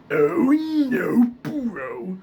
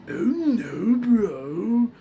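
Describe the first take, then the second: First: Loud, high, forced gravelly cry; Muscle Man. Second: Beginner's high, loud attempt; a less convincing gravelly cartoon cry; Muscle Man. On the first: Showing viewers the target sound, forceful Muscle Man voice. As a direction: push the gravel out hard. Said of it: "Muscle Man, you kinda wanna sound like". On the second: Warning viewers how they will first sound, rough Muscle Man attempt. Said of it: "you're most likely gonna sound like". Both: Shown as a demonstration.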